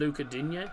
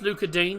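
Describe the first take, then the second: First: The surname ends with an audible final vowel. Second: The surname ends without a final vowel sound. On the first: "everyone calls him Luca Digne" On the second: "I think the E on the end might be silent"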